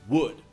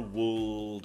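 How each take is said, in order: First: No L sound is pronounced in the word. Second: An L sound is pronounced in the word. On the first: The speaker calls it right. "The L does not sound" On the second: The speaker calls it wrong. "It's never wooled"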